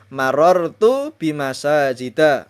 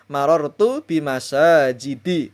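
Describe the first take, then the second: First: The last word ends with an 'a' vowel. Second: The last word ends with an 'i' vowel. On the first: The speaker calls it right. "Dimajrurkan dengan fathah" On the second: The speaker calls it wrong. "Tidak boleh dibaca"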